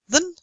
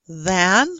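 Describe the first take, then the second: First: The word is said in a reduced form. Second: The word is said in its full form. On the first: "we say than" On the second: "Instead of than"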